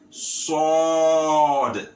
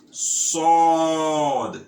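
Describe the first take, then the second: First: It has a heavy s and dark, o-like vowel. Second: The same.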